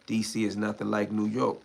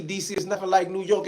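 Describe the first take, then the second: First: Said in the usual way. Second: "like" pushed up and leaned on, higher than the first take; stress on like. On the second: Shown as a demonstration. Insisting to chat, hitting "like" hard. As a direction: punch "like" to insist DC and New York differ. Repeats line, second take emphatic.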